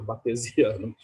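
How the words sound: It is pronounced in a Portuguese way. "no bom português"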